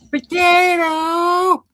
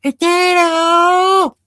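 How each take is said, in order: First: Put-on high, very slow old lady holler; potato lady yell. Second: Put-on high, drawn-out old lady shout; potato lady yell. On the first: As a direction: drag the name out like calling a lost dog. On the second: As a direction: holler like a neighbor calling her dog. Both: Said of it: "she'll stand on her porch and she'll go".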